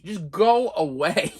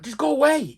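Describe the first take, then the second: First: Slow, weary drawn-out go away. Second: Higher, quick go away; exasperated plea. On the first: Patient silently begging the nurse, slow and weary. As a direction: stretch it out wearily. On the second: Patient silently begging the nurse, higher and fed up. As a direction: snap it out high and fed up. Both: Retold or imitated. Pleading inner wish.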